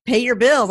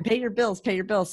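First: Louder, firm "Pay your bills"; firm reminder. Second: Said in the usual way. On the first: Retold or imitated. Mother reminding her kids, louder and firm. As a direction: bark it like a nagging parent. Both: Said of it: "I'm telling my kids all the time".

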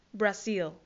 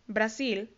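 First: "Brazil" said the English way, with a dark final l; English pronunciation. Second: Said in the usual way. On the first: Shown as a demonstration. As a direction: model "Brazil" as bra-ZIL for learners. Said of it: "Brasil se dice". ("Brazil" pronunciado en inglés, con l final oscura) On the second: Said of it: "se dice Brazil".

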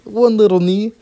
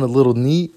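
First: "one" pushed high and loud, much louder; "one little knee" with a squeaky, louder emphasis on "one"; stress on one. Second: Said in the usual way. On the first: Retold or imitated.

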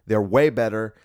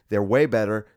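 No difference in how they are said.

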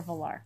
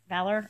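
First: "Valar" with open ending, va-LAR; alternative pronunciation. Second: "Valor" stressed on first syllable, VAL-er; alternative pronunciation. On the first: Reader checking a name with co-host, "Valar" as va-LAR. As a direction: say "Valar" as va-LAR, full final vowel. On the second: Reader checking a name with co-host, "Valor" as VAL-er. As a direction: say "Valor" as VAL-er, with a reduced ending. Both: Shown as a demonstration. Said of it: "Valor or Valar?".

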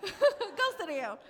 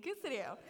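First: Higher, louder, slower playful telling-off; amused, emphatic mock order; laughing mock scolding. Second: Put-on playfully telling off a big-headed kid; mock scolding. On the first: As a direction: draw out the dismissal through laughter. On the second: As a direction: toss it off through a laugh. Mock-scolding her younger self.

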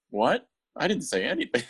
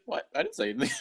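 First: Higher, playful mock innocence; mock innocent [name]. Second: Squeaked very high, mock innocence; squeaky fake innocence. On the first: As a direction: play dumb in a raised voice. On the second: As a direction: deny it in a silly squeak. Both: [name] denies speaking.

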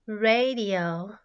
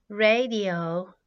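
The two takes are said the same way.

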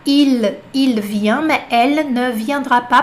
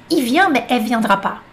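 First: "Il vient, mais elle ne viendra pas" with clear L's; como está escrito. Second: "Il vient, mais elle viendra pas" as "i vient mè è viendra pas"; sem ne. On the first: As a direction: sound "ne" and the L of "Il" and "elle" fully. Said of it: "Se você vê escrito". (com todos os L e o "ne") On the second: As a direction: drop the L's and "ne", keep it joined. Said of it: "Pode tirar esse ne aqui". (sem L e sem "ne") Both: Shown as a demonstration.

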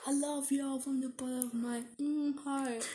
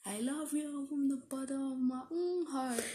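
First: Imam preaching voice, pitched up; lightly voiced imam blessing the crowd; like a preacher. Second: Lightly voiced rapper shout-out; rapper impression. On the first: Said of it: "this is my God Imam saying impression". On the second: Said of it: "This is my rapper impression".

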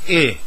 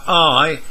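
First: "I" said as a short i, as in it; short i sound. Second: "I" said as the letter name, long eye. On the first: Teacher showing learners the real sound, short ih. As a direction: clip "I" to the short ih of sit. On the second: Teacher naming the letter for learners, "I" as eye. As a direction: say "I" like the word eye. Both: Shown as a demonstration. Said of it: "but it sounds like I".

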